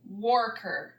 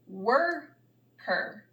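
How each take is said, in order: First: The first vowel sounds like 'or' in 'for'. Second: The first vowel sounds like 'er' in 'her'. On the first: The speaker calls it wrong. "that doesn't sound like a word that I know either" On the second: The speaker calls it right. "let's try and say it a different way"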